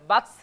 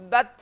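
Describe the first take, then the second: First: The word ends with an added s sound. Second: The word ends in a t with light breath. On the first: The speaker calls it wrong. "বাতস সিন না হয়ে যায়" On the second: The speaker calls it right. "তায়ে যখন জজম হবে বাত"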